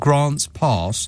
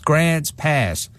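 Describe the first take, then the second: First: It is said in an English accent. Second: It is said in an American accent. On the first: The speaker calls it wrong. "it just sounds wrong with an English accent" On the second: The speaker calls it right. "you can only say with an American accent"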